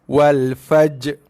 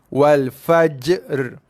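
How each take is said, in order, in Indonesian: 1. Bunyi r di akhir tidak diucapkan sama sekali. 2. Bunyi j memantul, lalu bunyi r terpisah mengikuti. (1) "Tak ada bunyi ra langsung" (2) "Habiskan bunyi jim berserta dengan sifat qalqalah dia, barulah kita bunyikan huruf ra"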